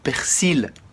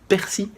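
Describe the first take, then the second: First: It is said with the local regional pronunciation. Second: It is said with the standard French pronunciation. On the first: "Chez nous, on dit du persil" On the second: "je vais le prononcer à la française"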